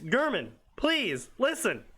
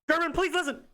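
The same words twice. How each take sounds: First: Each word is separated by a pause. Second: The words run together without pauses. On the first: The speaker calls it right. "you definitely want to put commas in here" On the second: The speaker calls it wrong. "instead of"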